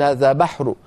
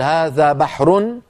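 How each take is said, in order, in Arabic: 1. الحركة الأخيرة تُقال خفيفة ومنخفضة. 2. الحركة الأخيرة تُنطق كاملة. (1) "فبدأ صوته ينخفض قليلا عند الوقف" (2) "هكذا مرفوعة"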